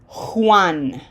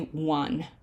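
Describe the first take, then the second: First: It begins with a strong, harsh H sound. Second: It begins with a weak or no H sound. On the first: The speaker calls it right. "That J has to have a very strong H sound" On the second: The speaker calls it wrong. "Most people just say Juan"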